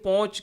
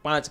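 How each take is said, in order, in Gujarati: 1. આ સ્વર ગોળ 'o' અવાજ છે. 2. આ સ્વર ખુલ્લો 'a' અવાજ છે. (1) "ઘણી જગ્યાએ પોંચ કહે" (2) "એને પાંચ કહેતા હોય"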